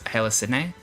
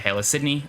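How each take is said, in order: First: The second word does not sound like the city. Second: The second word sounds like the city Sydney. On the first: "The way I think it should be said" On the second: "as in like the city Sydney"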